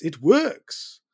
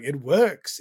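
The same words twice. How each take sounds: First: Louder mock French accent, "works" rising high; hammed-up French accent on "works". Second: Mock French accent, loud rising "works"; badly faked French accent saying "works". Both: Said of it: "That's not a French accent".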